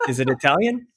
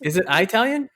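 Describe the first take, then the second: First: "Italian" started with the i of it; short-I "Italian". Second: "Italian" started like the word eye; long-I "Italian". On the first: Trying out the corrected pronunciation, "Italian" as ih-TAL-yun. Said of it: "Am I, am I good there?". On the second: Checking which pronunciation is right, "Italian" as eye-TAL-yun. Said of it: "Do you say Italian?". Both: Shown as a demonstration.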